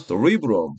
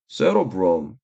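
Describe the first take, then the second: First: The stress is on the second syllable. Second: The stress is on the first syllable. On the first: "대뇌는 강세가 이음절이나 이음절" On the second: "대뇌는 강세가 이음절이나 이음절"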